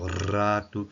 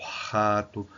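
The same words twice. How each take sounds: First: "rato" with a drawn-out rolled R; "rato", R held and rolled; regional R variant. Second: "rato" with a breathy, throaty R; "rato", R rasped at the back of the mouth; regional R variant. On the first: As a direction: say "rato" slowly, trilling the R. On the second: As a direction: say "rato" with the R as a strong H-like friction. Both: Shown as a demonstration. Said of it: "dependendo do sotaque do português brasileiro".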